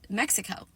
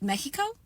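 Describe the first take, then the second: First: It is pronounced the English way. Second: It is pronounced the Spanish way. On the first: It follows how English speakers say it. "is it okay if I just call it Mexico" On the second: It follows the original language. "should I always call it Mexico?"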